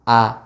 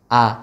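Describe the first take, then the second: No difference in how they are said.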